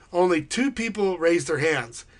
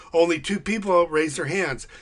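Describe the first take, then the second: The two takes are said the same way.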